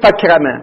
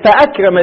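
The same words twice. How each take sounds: First: The glottal stop after 'fa' is dropped. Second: The glottal stop after 'fa' is pronounced. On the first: The speaker calls it wrong. "ما نقول فأكرم" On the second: The speaker calls it right. "نقول فأكرم زيد عمرا"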